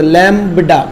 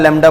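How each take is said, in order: First: The b sound is pronounced clearly. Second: The b sound is dropped or blurred. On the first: This is the proper English pronunciation. "देखो English में pronunciation भी पता" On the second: This is how it is said in casual speech. "हम बोलचाल की भाषा में थोड़ा थोड़ा थोड़ा आगे आगे लैम्बडा लैम्बडा बोल देते हैं"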